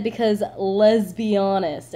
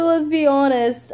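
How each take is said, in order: First: "let's be honest" slowed so "let's be" sounds like "lesbi"; punned let's be honest. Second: "Let's be honest" said loud, high and slow like "lesbi-honest"; lesbi-honest pun. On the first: Showing her pun on a guy she's messaging, drawn out slowly. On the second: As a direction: lean hard on "Let's be" as "lesbi". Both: Shown as a demonstration. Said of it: "And I said it like that".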